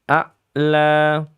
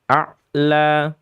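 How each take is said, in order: No difference in how they are said.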